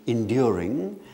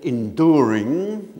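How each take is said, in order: First: It is said with a modern British accent. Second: It is said with an American accent.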